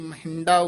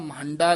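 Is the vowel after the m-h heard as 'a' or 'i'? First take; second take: i; a. First: The word is said with an 'i' vowel. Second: The word is said with an 'a' vowel. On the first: The speaker calls it right. "ਇਹ ਮਹਿੰਡਾ ਉਚਾਰਨ ਕਰਨਾ ਹੈ" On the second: The speaker calls it wrong. "ਮਹੰਡਾ ਨਹੀਂ ਕਹਿਣਾ"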